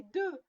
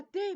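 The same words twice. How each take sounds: First: "de" said with a short mute e; correct pronunciation. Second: "des" said with a closed é sound, dé; wrong pronunciation. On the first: The mother scolds Zozo's repeated fault, "de" with mute e. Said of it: "mais de". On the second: The mother scolds Zozo's repeated fault, "des" said dé. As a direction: say "des" as dé, the child's mistake. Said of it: "On ne dit pas des". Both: Shown as a demonstration.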